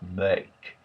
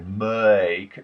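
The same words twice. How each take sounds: First: The vowel has a subtle uh before it. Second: The vowel has an exaggerated uh before it. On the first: The speaker calls it right. "there's a subtle uh that launches it off" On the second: The speaker calls it wrong. "you wouldn't say make"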